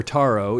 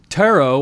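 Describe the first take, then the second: First: Taro with a broad "ah", TAH-roh. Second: Taro with the a as in "air", TARE-oh. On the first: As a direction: say Taro as TAH-roh, stress on the first syllable. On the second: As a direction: say Taro as TARE-oh, stress on the first syllable. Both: Shown as a demonstration. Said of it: "or Taro".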